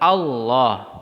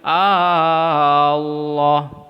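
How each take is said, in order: First: The first vowel is short, going straight on. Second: The first vowel is stretched out long. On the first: The speaker calls it right. "Yang benar Allah, masuk ke huruf lam" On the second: The speaker calls it wrong. "A-nya yang dipanjangin. ... keliru"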